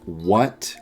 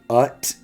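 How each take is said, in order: First: The word begins with a W sound. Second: The word begins without a W sound.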